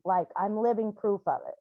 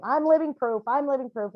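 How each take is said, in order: First: Said in the usual way. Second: Living proof called out higher, then settling; proclaiming it. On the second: Retold or imitated. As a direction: announce "I'm living proof" like a slogan, stress on living. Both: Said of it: "all the time I'm saying".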